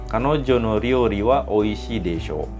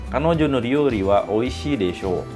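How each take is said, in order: Both takes have the same delivery.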